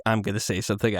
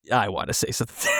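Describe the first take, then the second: First: Said in the usual way. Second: Eager outburst. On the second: Retold or imitated. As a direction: blurt it out fast, half shouting. Eager reply, shout heard.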